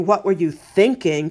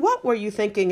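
First: It sounds scolding and exasperated. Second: It sounds sincere and genuinely curious.

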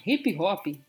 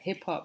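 First: Each part ends with an added vowel sound. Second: Each syllable ends on a consonant sound. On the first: "brasileiros like adding kind of extended vowels at the end of words" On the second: "for English speakers, would end on consonants"

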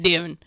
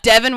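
First: The name is said with a nearly closed mouth. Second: The name is said with a wide-open mouth. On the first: This is the low-effort Southern way to say it. "They had to be like Divin" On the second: This is the full, effortful way to say it. "So it was like Divin was too hard"

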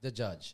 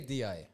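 First: The middle consonant is a 'j' sound. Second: The middle consonant is a 'y' sound. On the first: This is the standard Arabic form. "the proper Arabic way" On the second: This is the local Emirati dialect form. "It's like the UAE dialect. We don't say the G"

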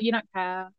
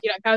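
First: It is said in a sad tone. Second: It is said in an angry tone.

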